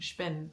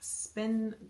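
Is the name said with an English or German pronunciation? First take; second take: German; English. First: The name is said with a German pronunciation. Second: The name is said with an English pronunciation.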